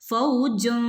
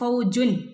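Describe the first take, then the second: First: The final n is hidden, with the tongue off the palate. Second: The final n is clear, with the tongue touching the palate. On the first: The speaker calls it right. "നാവ് മുകളിൽ അണ്ണാക്കിൽ തട്ടാതെ എന്ത് ചെയ്യണം ഓതണം" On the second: The speaker calls it wrong. "ഫൗജുൻ എന്ന് പറയരുത് നാവ് മുകളിലേക്ക് തട്ടാൻ പാടില്ല"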